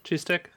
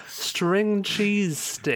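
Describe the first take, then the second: First: Said in the usual way. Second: Drawn out, very slow triumphant finding. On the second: Real, not acted. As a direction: stretch each word out slowly, word finally found. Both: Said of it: "That's the fucking word I'm looking for".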